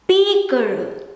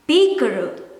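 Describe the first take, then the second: First: The final N sound is dropped. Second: The final N sound is dropped.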